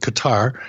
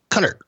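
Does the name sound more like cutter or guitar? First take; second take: guitar; cutter. First: It sounds like guitar, stressed at the end. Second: It sounds like cutter, stressed at the start. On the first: The speaker calls it wrong. "people would say it's not like guitar" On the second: The speaker calls it right. "it's cutter"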